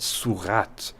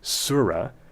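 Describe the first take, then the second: First: The word ends with a clear t sound. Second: The word ends on a vowel with no t. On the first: This is the French way of saying it. "the French pronunciation, not surah, but surat" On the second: This is the English way of saying it. "the nativized English way to pronounce that Arabic word on its own with the silent T"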